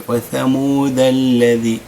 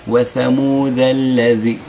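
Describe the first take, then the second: The two takes are said the same way.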